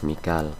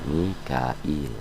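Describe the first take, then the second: First: The name is said in two syllables, Mi-kal. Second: The name is said in three syllables, Mi-ka-il. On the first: This is the reading in the Hafs tradition. "Dibacanya kalau hafaz Mikal" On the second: This is the reading in another tradition. "kalau riwayat lain ada yang pakai Mikail"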